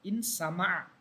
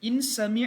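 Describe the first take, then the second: First: The vowel after the m is an a. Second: The vowel after the m is an i. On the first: The speaker calls it right. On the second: The speaker calls it wrong.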